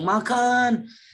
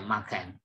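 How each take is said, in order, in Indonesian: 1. Kata itu diucapkan keras dan dipanjangkan. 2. Kata itu diucapkan pendek, datar, dan netral. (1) "dengan nada atau nada yang nyaring, ... durasinya panjang" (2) "Lihat intonasi bunyi saya"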